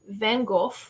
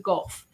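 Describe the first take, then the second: First: The name ends in a plain 'go' sound. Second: The name ends in a 'goff' sound. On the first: The speaker calls it wrong. "not Van Gogh" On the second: The speaker calls it right. "it's his actual pronunciation"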